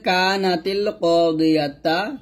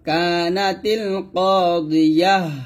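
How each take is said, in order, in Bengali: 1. শেষ শব্দটি একটি t ধ্বনি ও একটি স্বরধ্বনি দিয়ে শেষ হয়। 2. শেষ শব্দটি একটি h ধ্বনি দিয়ে শেষ হয়। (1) "এখানে আছে" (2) "থামলো হবে"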